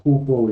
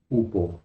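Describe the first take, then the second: First: "upo" with a Spanish jota-like breath before the u; initial J sound. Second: "upo" starting straight on the u, without aspiration; no J sound. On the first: Teacher shows students what the accent mark does, aspirated pronunciation. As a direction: start "upo" with an aspirated h, as "jupo". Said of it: "Ese acento equivale más o menos a". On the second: Teacher contrasts the form to avoid, unaspirated pronunciation. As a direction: say "upo" with no h before the vowel. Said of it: "suena como upo y no upo". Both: Shown as a demonstration.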